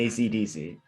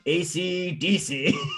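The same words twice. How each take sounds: First: The name is said the usual English way. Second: The name is said the Japanese way. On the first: "they say the name" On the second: "but it's more like"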